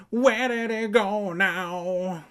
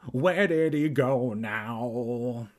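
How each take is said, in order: First: High, loud, drawn-out holler; calling out. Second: Drawn-out call after someone who left. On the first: Evan calls after Kermit running indoors, high stretched-out calling. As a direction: holler it slowly at a much higher pitch. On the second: Evan calls after Kermit running indoors, drawn-out calling. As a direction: call it out slowly, stretching each word. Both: A narrator's reading. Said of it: "Evan called".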